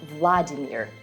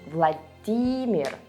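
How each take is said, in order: First: The stress is not on the second syllable. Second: The stress is on the second syllable. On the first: The speaker calls it wrong. "not Vladimir" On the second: The speaker calls it right. "but Vladimir. The stress goes on D"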